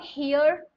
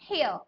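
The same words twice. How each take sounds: First: The final r sound is pronounced. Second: The final r sound is silent. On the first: The speaker calls it wrong. "It is not हियर" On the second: The speaker calls it right. "It is हियर"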